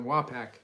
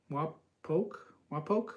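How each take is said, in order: First: "Wapak" ending like pack; own pronunciation. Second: "Wapok" ending like poke, questioning; tentative pronunciation. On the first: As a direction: say "Wapak" with a short a, falling. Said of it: "this is the way I pronounce it". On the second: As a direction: sound out "Wapok" with a long o, rising. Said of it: "is pronounced Wa". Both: Shown as a demonstration.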